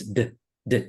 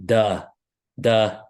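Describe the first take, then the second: First: "d-" cut short, hardly any vowel; a bare, quick "d-" consonant; chopped D. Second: "duh" with an audible "uh" after the D; D released into a clear vowel, "duh"; schwa demo. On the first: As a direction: clip "d-" to drop the "uh". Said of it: "we chop up so we don't have that schwa". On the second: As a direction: show the schwa: a full "duh". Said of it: "That's called a schwa". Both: Shown as a demonstration.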